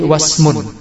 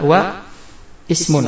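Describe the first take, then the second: First: Wa links straight into smun with no glottal stop. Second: A separate glottal onset starts ismun after wa. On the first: This is how it is read mid-phrase. "karena dia di tengah kata, maka kita baca menjadi wasmun" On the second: This is the underlying form. "Asalnya adalah wa ismun"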